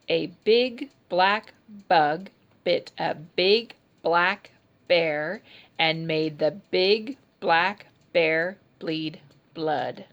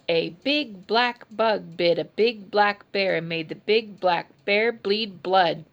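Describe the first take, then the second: First: It is said at an ordinary, slower pace. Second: It is said at a faster pace.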